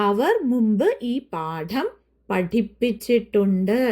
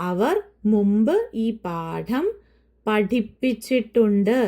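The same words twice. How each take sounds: Both takes have the same delivery.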